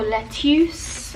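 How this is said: The word is said in a Singaporean accent.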